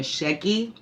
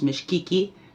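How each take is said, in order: First: A vowel follows the first syllable, no k. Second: A k sound follows the first syllable. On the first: "I'm saying Misheki" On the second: "some people say medicine is Mishkiki"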